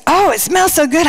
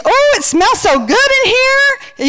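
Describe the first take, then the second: First: Toned-down retold gush; a lightly raised, pleased quote; mild delight. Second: Very high, drawn-out coo; gushing delight. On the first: Friend praising the cooking smells, mildly delighted retelling. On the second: Retold or imitated. Friend coming home to cooking smells, high gushing delight. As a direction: gush slowly in an exaggerated high voice.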